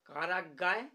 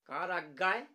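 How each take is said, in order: The two takes are said the same way.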